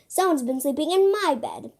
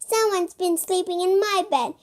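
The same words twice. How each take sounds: First: It is said in a medium, middling voice. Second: It is said in a tiny, high voice. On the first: "in a medium-sized voice" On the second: "in a teeny tiny voice"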